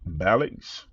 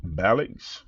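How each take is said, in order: First: The name is said as Balix. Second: The name is said as Balix.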